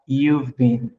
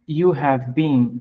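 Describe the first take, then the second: First: Have is shortened and joined onto you. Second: Have is said as a full separate word.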